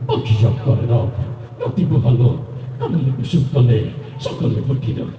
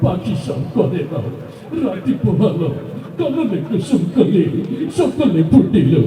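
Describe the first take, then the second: First: It is recited in a tough, action-hero voice. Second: It is recited in a tearful, crying voice. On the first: "ওই action hero. ... এইভাবে" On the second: "সে কানতে কানতে বলল"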